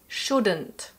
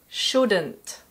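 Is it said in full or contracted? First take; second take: contracted; contracted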